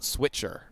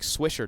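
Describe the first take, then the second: First: The middle consonant is a 'tch' sound. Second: The middle consonant is a soft 'sh' sound. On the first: The speaker calls it wrong. "not Switcher" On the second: The speaker calls it right. "you need to pronounce it like Swisher"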